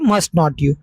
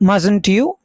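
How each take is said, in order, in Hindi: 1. Must और not अलग-अलग शब्दों की तरह बोले जाते हैं। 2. Must not एक ही शब्द में संकुचित हो जाता है। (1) "मस्ट नेगेटिव बना मस्ट नॉट" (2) "also pronounced as मस्टंट"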